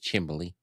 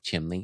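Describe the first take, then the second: First: The word is said with an added 'b' sound. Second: The word is said with a plain 'mn' sound.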